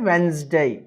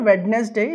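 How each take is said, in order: First: The first D sound is silent. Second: The first D sound is pronounced. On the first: The speaker calls it right. "It's a వెన్స్డే, right" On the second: The speaker calls it wrong. "It's not వెడ్నెస్డే"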